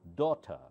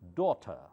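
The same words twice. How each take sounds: First: British accent, with the final R left silent. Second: British accent, with the final R left silent.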